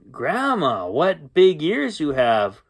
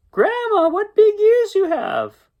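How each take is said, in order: First: Said in the usual way. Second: Very high, drawn-out Red voice; little Red parroting. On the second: Acted. Red repeating the storyteller's line to Grandma, high little-girl parroting. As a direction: squeal the rehearsed line slowly.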